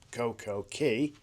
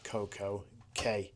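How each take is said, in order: First: The last word is said like 'key'. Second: The last word is said like 'kay'. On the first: "I think it should be pronounced Coco Key" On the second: "I've pronounced it K to match with day"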